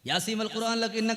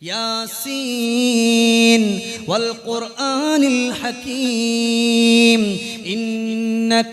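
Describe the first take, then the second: First: The words are recited quickly and run together. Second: The words are recited slowly and each is distinct. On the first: The speaker calls it wrong. "അതല്ല, അങ്ങനല്ല" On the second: The speaker calls it right. "ഇങ്ങനെ ഓതിയാലും മതി"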